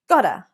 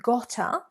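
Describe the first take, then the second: First: The middle consonant is a soft D sound. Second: The middle consonant is a clear T sound. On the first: "we've replaced the t with a kind of lazy D sound" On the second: "rather than"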